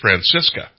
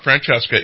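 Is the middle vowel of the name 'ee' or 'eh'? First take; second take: ee; eh. First: The middle vowel sounds like 'ee'. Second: The middle vowel sounds like 'eh'. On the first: The speaker calls it right. "it's Francisca" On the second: The speaker calls it wrong. "it's not Francesca"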